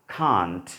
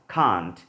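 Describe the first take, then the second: No difference in how they are said.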